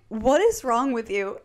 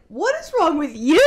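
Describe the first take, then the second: First: Slow, understated reproach; mildly fed-up, measured question; retold exasperation. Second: Higher, indignant echo with a laugh; hammed-up indignation, pitched up; mock offended retort. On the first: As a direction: ask it wearily, at your usual pitch. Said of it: "Stefan is just like". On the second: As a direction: throw it straight back, playfully affronted. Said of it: "I'm so offended".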